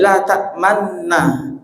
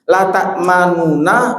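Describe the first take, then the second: First: The two n sounds merge into one doubled n. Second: Two separate n sounds with a vowel between them. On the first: This is the form actually recited. "dicampur jadi satu" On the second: This is the original underlying form of the word. "asli kata bahasa apa kalimat Arabnya itu la ta'manuna"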